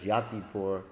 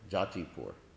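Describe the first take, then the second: First: The name begins with a y sound. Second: The name begins with a j sound. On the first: This is the original Sanskrit form. "in Sanskrit, it's Yatipur" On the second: This is the local Bengali-influenced form. "It's a Bengalicized pronunciation of it"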